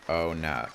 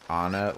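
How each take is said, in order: First: It sounds like 'oh' followed by 'net'. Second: It sounds like the two words 'on it'. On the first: The speaker calls it right. "that is how you pronounce it" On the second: The speaker calls it wrong. "I always just pronounced it like on it, like the words on it"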